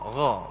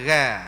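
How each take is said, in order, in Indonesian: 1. Konsonan itu diucapkan berat, mulut penuh. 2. Konsonan itu diucapkan ringan dan tipis. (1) "tebalkan dengan maksud kita sebut gha" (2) "bukan gha"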